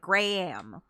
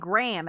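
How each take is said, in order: First: The vowels are separated by a faint H. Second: There is no H, just one syllable. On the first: The speaker calls it right. "not saying the H fully, but he's going like" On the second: The speaker calls it wrong. "everyone else pronounces it Graham"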